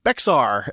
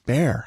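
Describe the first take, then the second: First: It is said with a 'ks' sound, as spelled. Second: It is said exactly like the word 'bear'. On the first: The speaker calls it wrong. "I was like, Bexar. And my wife looked at me like I was stupid" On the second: The speaker calls it right. "She goes, it's Bear"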